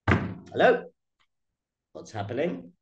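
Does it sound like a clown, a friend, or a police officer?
police officer. It is said like a stern police officer.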